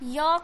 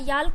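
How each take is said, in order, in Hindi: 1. L की ध्वनि का उच्चारण नहीं होता। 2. L की ध्वनि स्पष्ट रूप से बोली जाती है। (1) "एल साइलेंट करना है" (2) "अगर एल अगर पढ़ोगे"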